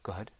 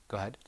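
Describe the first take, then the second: The two takes are said the same way.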